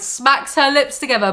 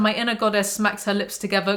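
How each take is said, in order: First: Louder, higher mock echo; incredulous repeat. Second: Said in the usual way. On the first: Reader mocking the book's inner goddess line, incredulous. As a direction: throw the line back in disbelief.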